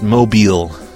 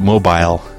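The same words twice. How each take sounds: First: It is not said like the cell phone word. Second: It is said like the cell phone word. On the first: "PC says it's pronounced Mobile" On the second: "like I'm a Canadian with a cell phone"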